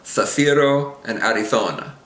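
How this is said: The z is pronounced the Spain way. "whereas in Spain"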